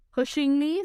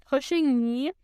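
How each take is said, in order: First: Said in the usual way. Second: Startled question with a rise; surprised. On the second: Acted. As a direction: repeat it, caught off guard. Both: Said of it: "said Eeyore in surprise".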